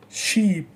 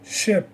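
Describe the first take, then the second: First: "sheep" alone, long ee; long vowel. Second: "Ship" alone, short lax i; short vowel. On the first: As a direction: model "sheep" with a drawn-out ee. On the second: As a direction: model "Ship" with a brief vowel. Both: Shown as a demonstration. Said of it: "Repeat after me".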